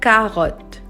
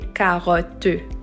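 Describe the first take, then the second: First: The final E is silent. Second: The final E is sounded as an extra vowel. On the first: The speaker calls it right. "It's silent. So it's just carotte" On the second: The speaker calls it wrong. "I did not say carotte. I did not pronounce the E at the end"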